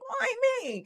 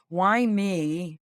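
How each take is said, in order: First: It is said in a whiny, complaining tone. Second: It is said plainly, without complaint.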